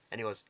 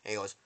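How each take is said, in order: Both takes have the same delivery.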